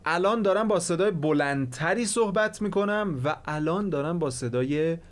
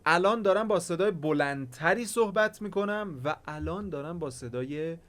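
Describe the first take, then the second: First: The loudness stays level across loud and quiet parts. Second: The loudness rises and drops noticeably between parts. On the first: The speaker calls it right. "ولوم صدای من اوکیه" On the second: The speaker calls it wrong. "این صدا الان به درد نمیخوره"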